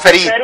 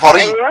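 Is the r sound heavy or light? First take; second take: light; heavy. First: The r sound is light and thin. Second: The r sound is heavy and full. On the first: The speaker calls it right. "انا بقول فريد" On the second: The speaker calls it wrong. "لكن بقولش فريد"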